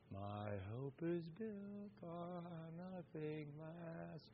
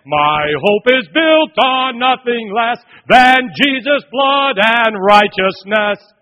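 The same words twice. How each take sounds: First: Sung, very soft, slow, limp hymn line; sung, mimic a weak half-hearted church crowd; feeble singing. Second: Loud, higher, slow sung hymn line; sung, belt it like a thousand soldiers in unison; singing hymn loudly. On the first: Son contrasting a limp hymn with soldiers' singing, soft and slow. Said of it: "it's not like". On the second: Retold or imitated. Soldiers singing the hymn together in chapel, loud and slow. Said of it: "one thousand men".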